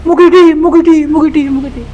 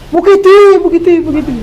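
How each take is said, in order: First: Loud high call down the well. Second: Loud high call across the cliff. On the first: Man calling his friend's name down a sacred well, loud and high. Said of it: "memanggil teman, nama temannya". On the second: Man calling his dead friend's name from a cliff, loud and high. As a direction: shout the name out over the cliff edge. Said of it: "manggil dengan sebutan nama". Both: Acted.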